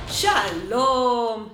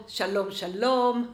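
First: Slow, drawn-out שלום modelled for learners; slow teacher greeting. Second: Fast, brisk שלום, שלום rattled off; quick run-through of שלום, שלום; quick repeat. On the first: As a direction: stretch שלום out slowly and clearly, like a teacher. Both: Shown as a demonstration.

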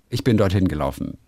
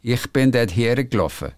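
First: Said in the usual way. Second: Ich bin dort hergelaufen with Swiss vowels, gelaufen as geloffe; Swiss accent. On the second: Shown as a demonstration. Reading a Swiss listener's letter, a light Swiss accent. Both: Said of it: "wird schnell mal zu geloffen".

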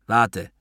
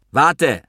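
First: Said in the usual way. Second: High, raised call to wait; urgent call. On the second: A narrator's reading. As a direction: stop someone walking away. Calls after the departing narrator. (dringender, hoher Zuruf)

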